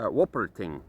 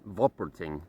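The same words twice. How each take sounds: First: The word begins with an English W sound. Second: The word begins with a V sound.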